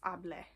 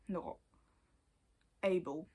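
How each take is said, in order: First: The ending sounds like 'ah-bleh'. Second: The ending sounds like 'ay-bul'. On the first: The speaker calls it right. "you'll pronounce it as able" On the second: The speaker calls it wrong.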